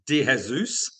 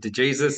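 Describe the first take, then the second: First: The name is said in its original Portuguese way. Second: The name is said in an anglicized Australian way. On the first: This is how the name is properly meant to sound. "it's meant to be" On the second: This is the easy version everybody can say. "in Australia and growing up, it's always just been"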